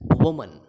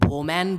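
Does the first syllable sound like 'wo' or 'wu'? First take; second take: wu; wo. First: The first syllable has a short 'u' vowel. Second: The first syllable has an 'o' vowel. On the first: The speaker calls it right. "It's वुमन" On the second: The speaker calls it wrong. "इसको लोग वोमैन बोलते हैं जो कि गलत है"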